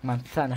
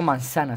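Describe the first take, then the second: First: Said in the usual way. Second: "manzana" with an s sound, Latin American accent; Latin American seseo. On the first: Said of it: "Le digo manzana, ¿sabes?". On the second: Shown as a demonstration. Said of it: "porque me gusta el acento".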